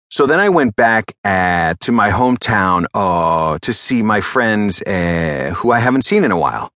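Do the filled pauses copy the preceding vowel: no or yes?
yes. Each filled pause repeats the vowel just spoken.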